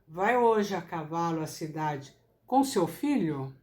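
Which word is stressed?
filho. The word filho carries the strongest stress. The question is about the companion.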